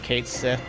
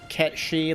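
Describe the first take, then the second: First: It is said as English spelling suggests. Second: It is said with Gaelic-like sounds. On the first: "they pronounced it like they spelt it" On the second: "that's how it's supposed to come out"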